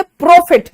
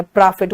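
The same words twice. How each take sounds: First: प्रॉफिट as "PROH-fit", higher and louder; loud, round-mouthed o in प्रॉफिट; Haryanvi pronunciation. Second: प्रॉफिट as "PRAA-fit", open vowel; lower, open-mouthed प्रॉफिट; Allahabad-style pronunciation. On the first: Retold or imitated. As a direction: exaggerate प्रॉफिट with rounded lips. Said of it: "देखो गोल कर दिया और मुंह". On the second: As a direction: mimic प्रॉफिट with a wide-mouthed aa. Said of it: "वो मुंह और फाड़ देते हैं".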